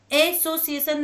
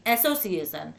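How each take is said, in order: First: एसोसिएशन starting on a closed "ay"; spelling pronunciation. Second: एसोसिएशन starting on an open "ae", as in "cat"; English pronunciation. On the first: Teacher repeating what not to say, closed "ay" opening on एसोसिएशन. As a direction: begin एसोसिएशन with letter-name A. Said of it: "नहीं". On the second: Teacher repeating the spoken form, open "ae" opening on एसोसिएशन. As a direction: open the first vowel of एसोसिएशन, pitched lower. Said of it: "लेकिन इसे एक्ट बोलते हैं". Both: Shown as a demonstration.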